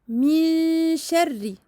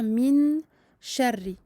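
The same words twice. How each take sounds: First: The n is hidden, blending nasally into the sh. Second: The n is pronounced clearly with the tongue tip. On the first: The speaker calls it right. "Ici, il y a irfa" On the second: The speaker calls it wrong. "Je ne dois pas faire min sharri"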